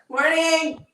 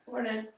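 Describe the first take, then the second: First: The greeting sounds confident. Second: The greeting sounds unconfident.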